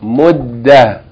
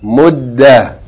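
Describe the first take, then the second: Both takes have the same delivery.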